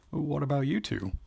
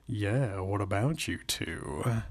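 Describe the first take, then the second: First: Higher, curious question. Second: Slow, teasing echo; playful teasing. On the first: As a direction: ask it lightly with pitch lifted. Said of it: "Jessica asked". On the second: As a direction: draw the question out with a twinkle. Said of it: "echoed with a twinkle in her eye". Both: A narrator's reading.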